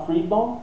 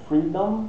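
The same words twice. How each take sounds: First: "freedom" with a Portuguese nasal ending, lips left open; "freedom" without closing the final M; wrong final M. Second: "freedom" ending with lips pressed on the M; "freedom" with an English hummed final M; closed final M. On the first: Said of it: "não falar freedom". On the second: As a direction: close your lips firmly to finish "freedom". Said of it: "é um lábiozinho encostou no outro". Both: Shown as a demonstration.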